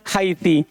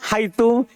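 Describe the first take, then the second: First: The word ends with an i vowel. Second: The word ends with an u vowel. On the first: "kadang kasro" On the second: "kadang di atas dhamma"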